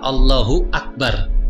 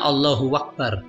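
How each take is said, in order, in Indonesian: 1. Tidak ada bunyi w yang menghubungkan Allahu dengan Akbar. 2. Bunyi w menghubungkan Allahu dengan Akbar.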